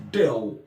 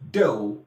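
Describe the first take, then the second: First: The final L sounds like W. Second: The same.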